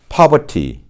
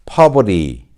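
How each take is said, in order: First: The r is silent and the t is crisp. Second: The r is sounded and the t is flapped. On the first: "영국식은 어떻게 발음되어질까요? ... 이렇게 발음되어지죠" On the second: "미국식으로 발음하면"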